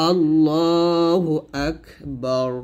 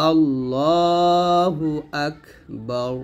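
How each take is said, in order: The two takes are said the same way.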